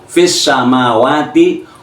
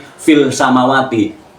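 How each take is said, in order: First: The first word ends with an S sound. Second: The first word ends with an L sound. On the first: This is how it is read under the assimilation rule. "kalau dibaca dengan hukum al-samsiah" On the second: This is the underlying original form. "asal kata tadi"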